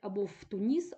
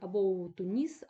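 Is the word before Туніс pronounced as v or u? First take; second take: v; u. First: The preposition is pronounced as v. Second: The preposition is pronounced as u. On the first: The speaker calls it wrong. "Неправильна вимова" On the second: The speaker calls it right. "повинен бути у нескладотворчий"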